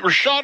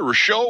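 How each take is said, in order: First: Rashot with the final T sounded; pronunciation variant. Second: Rashot with a silent final T; alternative pronunciation. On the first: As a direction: end Rashot on a clear T. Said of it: "is it Rashot or Rashot". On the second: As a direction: say Rashot French-style, ending on an open vowel. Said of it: "both ways". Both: Shown as a demonstration.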